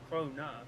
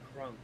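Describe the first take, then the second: First: It is said the way Europeans say it. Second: It is said the way locals say it. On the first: "they pronounce it as Krona" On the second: "we pronounce it as Krone"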